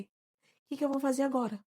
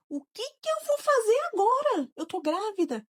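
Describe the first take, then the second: First: Said in the usual way. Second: Retold distress. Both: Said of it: "Aquela pergunta lá de quando tudo aconteceu".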